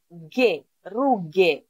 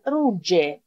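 First: "γε, ρούγε" with a hard g as in get. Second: "ρούτζε" with g as j in jet; soft G. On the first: Teacher explains G plus H, hard g pronunciation. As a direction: say "γε, ρούγε" with g stopped at the back, low pitch. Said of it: "το λέω γε". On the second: Teacher shows learners the word without H, soft g pronunciation. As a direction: say "ρούτζε" with a dzh sound. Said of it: "Αν δεν είχα το άκα θα ήταν ρούτζε". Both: Shown as a demonstration.

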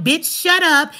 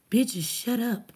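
First: Said in the usual way. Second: Slow, low, mocking readout of a commenter. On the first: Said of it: "saying dumb shit like". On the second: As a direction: drag out "Bitches, shut up" to ridicule it. Reading out an insulting chat comment.

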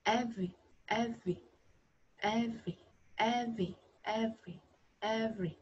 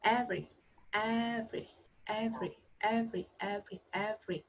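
First: "every" with a buzzing v, hardly any r; voiced v. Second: "every" with a clear r after the v; repeated model "every", r fully sounded; curled-tongue r. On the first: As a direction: repeat "every" with the throat vibrating on v. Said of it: "âm này lại có thanh". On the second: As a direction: curl the tongue right up for the r in "every". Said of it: "lưỡi cong hẳn lên trên". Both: Shown as a demonstration.

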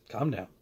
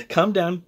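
First: Soft self-reminder to calm down; calming himself. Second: Said in the usual way. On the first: Real, not acted. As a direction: hush yourself mid-rant.

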